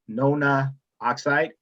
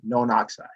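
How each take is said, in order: First: The final vowel of the prefix is pronounced. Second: The final vowel of the prefix is dropped. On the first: The speaker calls it wrong. "you don't say" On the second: The speaker calls it right. "you say"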